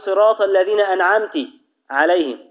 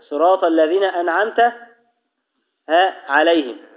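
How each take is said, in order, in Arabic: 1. التاء الأخيرة من an'amt تأخذ حركة i. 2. التاء الأخيرة من an'amt تأخذ حركة a.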